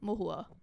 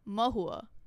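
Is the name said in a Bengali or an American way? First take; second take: Bengali; American. First: It is said quickly in a Bengali way. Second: It is said in an American English way.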